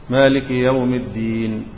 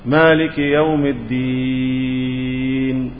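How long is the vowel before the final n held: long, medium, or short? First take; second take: short; long. First: The vowel before the final n is held briefly. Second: The vowel before the final n is held very long. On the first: "مديناه كم حركة؟ جوز" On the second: "ست، ده الإشباع، المد الطويل"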